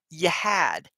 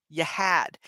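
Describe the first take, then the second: No difference in how they are said.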